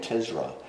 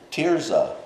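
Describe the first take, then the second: First: The z sound comes before the r sound. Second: The r sound comes before the z sound. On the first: The speaker calls it wrong. "I keep saying Tizra" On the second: The speaker calls it right. "I'm going to say it right this time"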